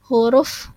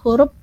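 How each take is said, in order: First: The word ends with an f sound. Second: The word ends with a p sound. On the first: The speaker calls it right. "di sini ada huruf F" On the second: The speaker calls it wrong. "dibunyikan seperti huruf P"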